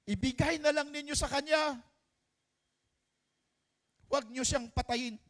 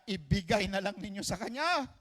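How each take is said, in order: First: Put-on high, pleading cry to spare the child; desperate plea. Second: Said in the usual way. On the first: True mother begging King Solomon to spare her baby, high and desperate. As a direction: beg the king to let the baby live.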